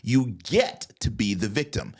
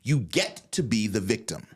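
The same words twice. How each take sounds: First: It is said slowly. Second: It is said at normal speed.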